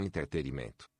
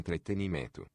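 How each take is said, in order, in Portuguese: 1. O meio da palavra não tem som de n. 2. O meio da palavra tem som de n. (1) "e não entretenimento" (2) "o certo é entretenimento"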